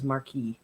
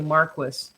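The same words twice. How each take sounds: First: It is said the French way, not like Marcus. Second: It is said the British way, like Marcus. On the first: "everybody else says Marquis" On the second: "the British say Marquis"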